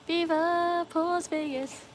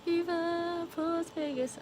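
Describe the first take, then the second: First: High, slow drawn-out chant of the slogan. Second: High, slow drawn-out catchphrase, softer; softer slogan voice. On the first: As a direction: stretch out the catchphrase like a showman. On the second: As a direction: ease out the catchphrase gently. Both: Shown as a demonstration. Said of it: "I just can't do it as good as you".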